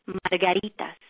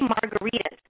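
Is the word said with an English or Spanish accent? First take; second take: Spanish; English. First: It is said with a Spanish accent, R rolled. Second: It is said with a plain English accent. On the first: The speaker calls it right. "your first lesson in your Spanish accent. ... Learn how to roll your damn R's" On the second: The speaker calls it wrong. "You can't say margaritas"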